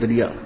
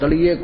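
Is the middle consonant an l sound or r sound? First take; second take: r sound; l sound. First: The middle consonant is an r sound. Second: The middle consonant is an l sound.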